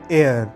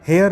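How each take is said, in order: First: The word starts without an h sound. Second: The word starts with an h sound. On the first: The speaker calls it right. "एच इसमें silent रहता है" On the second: The speaker calls it wrong. "हेयर नहीं"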